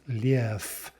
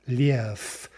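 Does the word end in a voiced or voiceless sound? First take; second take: voiceless; voiceless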